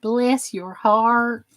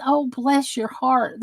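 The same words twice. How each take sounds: First: "Bless your heart" stretched slow in a Southern drawl. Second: Soft, slow "Oh, bless your heart" full of sympathy; tender bless your heart. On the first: Shown as a demonstration. Explaining Southern phrase to chat, slow drawl. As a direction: lean into the Southern phrase, slowly. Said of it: "It doesn't always mean kiss my ass". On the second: Retold or imitated. Explaining to chat the kind meaning, soft and tender. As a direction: say it gently, like real pity. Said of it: "That means".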